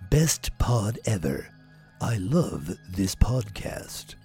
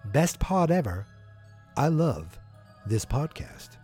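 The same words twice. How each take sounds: First: It is said in a dramatic movie trailer voice. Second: It is read in an ordinary speaking voice.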